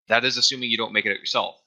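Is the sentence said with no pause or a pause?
no pause. It is said straight through without a break.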